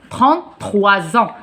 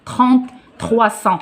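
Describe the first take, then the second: First: "trois ans" linked with a voiced z; correct Z liaison. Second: "trois cents" with a hissed s instead of z; wrong liaison. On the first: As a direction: say "Trente-trois ans" as "trente-troi-zan". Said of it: "ça prononce Z". (bonne liaison en Z : « trois ans ») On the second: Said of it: "on dit pas". (mauvaise liaison en S : « trois cents ») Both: Shown as a demonstration.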